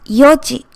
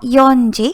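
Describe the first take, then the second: First: No n sound comes before ji. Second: An n sound comes before ji. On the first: The speaker calls it right. "it's yoji" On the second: The speaker calls it wrong. "It's not yonji"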